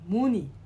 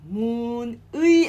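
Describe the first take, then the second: First: The second vowel is a plain 'i'. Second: The second vowel is the full 'ui' glide. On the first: The speaker calls it right. "we link the end sound" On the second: The speaker calls it wrong. "아니고"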